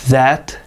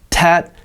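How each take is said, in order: First: The word begins with an exaggerated th sound. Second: The word begins with a hard t sound. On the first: The speaker calls it right. "just imitate what I'm doing" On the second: The speaker calls it wrong. "it's not"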